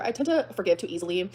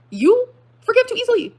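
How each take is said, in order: First: Said in the usual way. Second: Very high, loud, slow incredulity; outraged disbelief. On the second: Real, not acted. Throwing ex's claim back at them, outraged disbelief. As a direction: stretch it out, scandalized and loud.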